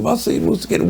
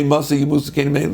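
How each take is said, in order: First: A kind, earnest "Masa Yimusa Kenim"; positive way. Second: A cold, grasping "Masa Yimusa Kenim"; mean way. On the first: Brothers preparing to lead, said with good intent. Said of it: "they said it to me in a positive way". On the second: Brothers wishing the elders gone, said meanly. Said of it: "they weren't saying in the mean way". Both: Shown as a demonstration.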